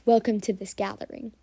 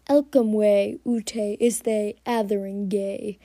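First: Said in the usual way. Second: "Elcomwe, Ute, Iste, Athering, Gay" with first sounds moved to the end plus ay; Pig Latin. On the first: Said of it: "what I just said was". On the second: Shown as a demonstration. Podcaster shows how cats would greet in Pig Latin, playful. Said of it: "what I just said was, "Welcome to this gathering".

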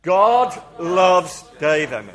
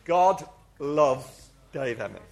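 First: Slow, much louder proclamation; loud group declaration. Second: Slow declaration. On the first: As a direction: call it out boldly with the crowd. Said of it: "Let's say it again, everybody together". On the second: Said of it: "I'm gonna say my name". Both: Shown as a demonstration.

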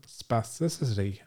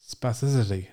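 First: "spasticity" said slowly and carefully, slightly muddled; tricky "spasticity", taken slowly and not quite cleanly; stumbled pronunciation. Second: "Spasticity" in one quicker, smoother go; quick second attempt at "Spasticity"; said fast. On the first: Real, not acted. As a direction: feel your way through "spasticity", syllables blurring a little. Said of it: "I sound like a stroke victim". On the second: Shown as a demonstration. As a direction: rush through "Spasticity" so it sounds right. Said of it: "say it really fast".

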